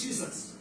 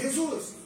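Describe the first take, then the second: First: The name is pronounced with English sounds. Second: The name is pronounced with Spanish sounds. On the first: "en inglés creo que es" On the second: "en español es"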